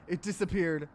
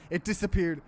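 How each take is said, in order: Both takes have the same delivery.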